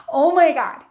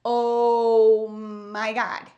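First: Louder, laughing Oh my God; laughing exclamation. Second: Stunned slow oh my God. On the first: Real, not acted. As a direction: laugh it out in real disbelief. Laughing recalling the disaster. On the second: Retold or imitated. Retold shock at hair complaint.

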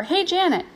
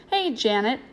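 First: High-pitched attention-getting call. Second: Said in the usual way. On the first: A narrator's reading. Ajax to Janet from the ring, calling out. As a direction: call across the ring to her. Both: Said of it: "Ajax called from the ring".

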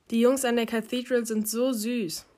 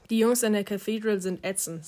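First: Gushing. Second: Dismissive echo, sour on ätzend; sour retort. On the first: Susie swoons over the Cathedral boys, gushing. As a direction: gush over how cute they are. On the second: Ari counters the girls' swooning, sour retort. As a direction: throw the gush back with distaste. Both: A narrator's reading.

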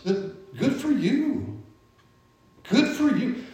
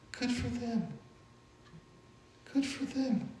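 First: Lifted, drawn-out good for you; sing-song cheer for someone else's win; playful high-pitched good for you; high mock congratulations. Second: Quiet high good for them; gently glad for friends' blessing; soft sincere blessing. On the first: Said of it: "Don't be jealous". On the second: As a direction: hush it, meaning it. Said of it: "God has blessed them". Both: Shown as a demonstration.

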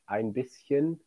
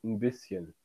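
First: "ein bisschen" with the article fully sounded as "ein"; careful, complete "ein" before "bisschen"; full-form pronunciation. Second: "ein bisschen" with "ein" shrunk to just "n"; swallowed colloquial article. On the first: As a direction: say "ein bisschen" in full, every syllable distinct. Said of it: "wir sagen nicht". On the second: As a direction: casually reduce "ein bisschen" to "'n bisschen". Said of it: "sondern wir sagen". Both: Shown as a demonstration.

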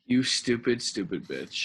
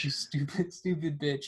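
First: Hammed-up mocking jeer; mock insult. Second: Plain voice breaking into a laugh on stupid; amused repeat with a laugh. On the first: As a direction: drop into a mocking voice for the second stupid. Mocking a character's death. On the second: Retold or imitated. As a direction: giggle through the insult.

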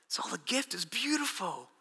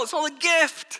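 First: Soft repetition. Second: Raised, ringing declaration of grace; loud exclamation. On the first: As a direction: drop to a soft, hushed repeat. Repeats the phrase softly. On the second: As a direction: proclaim it high and loud. Preacher exclaims, then repeats softly. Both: Real, not acted.

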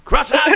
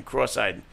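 First: "Cross-eyed" squeaked much higher with a rising end; surprised high squeal. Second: Said in the usual way. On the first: Real, not acted. Reads name, then repeats it.

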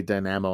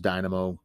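First: Dynamo said die-NAM-oh, stress on the middle; own pronunciation. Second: Dynamo said DIE-nuh-moh, stress on the first syllable; standard pronunciation. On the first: Real, not acted. Camper owning up to his way of saying dynamo, die-NAM-oh. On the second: Shown as a demonstration. Camper giving the proper way to say dynamo, DIE-nuh-moh. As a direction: hit the first syllable of dynamo, keep the middle weak. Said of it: "I'm sure it's pronounced dynamo".

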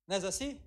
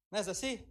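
No difference in how they are said.

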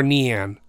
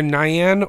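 First: "Nian" said as NEE-an; second pronunciation option. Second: "Nian" said as NIGH-an; first pronunciation option. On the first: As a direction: start "Nian" like the word "knee". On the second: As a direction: start "Nian" like the word "nigh". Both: Shown as a demonstration. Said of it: "it's either Nian or Nian".

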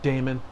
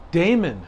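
First: Said in the usual way. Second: "Damon" raised to correct a mishearing; stress on Damon. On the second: Retold or imitated. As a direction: repeat "Damon." as an insistent correction. Repeats name to mishearing clerk.

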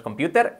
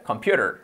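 First: "computer" with a hard, crisp t; learner's mistaken "computer" with a clear t; mispronounced computer. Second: Natural "computer", t lightly tapped; correct pronunciation of computer. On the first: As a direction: demonstrate the wrong "computer", t fully pronounced. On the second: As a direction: model "computer" with the t softened to a flap. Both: Shown as a demonstration. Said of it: "Fijaros que no es computer".

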